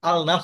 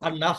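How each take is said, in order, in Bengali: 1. 'l' ধ্বনিটি 'n'-এর আগে উচ্চারিত হয়। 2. 'l' মিশে যায় দ্বিত্ব 'n' ধ্বনিতে। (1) "আল নাস হবে না" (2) "হবে"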